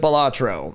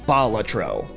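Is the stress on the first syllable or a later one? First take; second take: later; first. First: The stress is on a later syllable. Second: The stress is on the first syllable. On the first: The speaker calls it wrong. "everyone in the gaming community colloquially calls it" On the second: The speaker calls it right. "it's on the first syllable"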